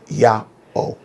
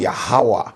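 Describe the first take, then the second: First: The two parts are separated by a pause. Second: The two parts are joined by a W sound. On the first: The speaker calls it right. "is Yah, a pause, and O" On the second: The speaker calls it wrong. "a lot of people mispronounce this name"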